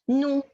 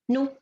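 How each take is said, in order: First: The vowel is said fully and clearly. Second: The vowel is said quickly, low and partly. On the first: "this is a حركة" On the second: "I make my voice low and I run on it"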